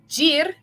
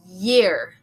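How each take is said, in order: First: It begins with a hard J sound. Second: It begins with a soft Y sound. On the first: The speaker calls it wrong. "this is not a jir" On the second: The speaker calls it right. "this would be year"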